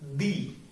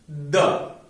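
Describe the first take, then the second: First: The vowel is a long 'ee' sound. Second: The vowel is a short, weak 'uh' sound. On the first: The next word starts with a vowel sound. "But if the word starts with a vowel sound, then the definite article before it would be pronounced as the" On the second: The next word starts with a consonant sound. "If a word starts with a consonant sound, the definite article before it used would be pronounced as the"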